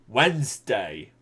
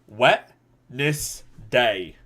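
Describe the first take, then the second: First: The word is said in its usual reduced form. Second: Every written syllable is sounded out separately.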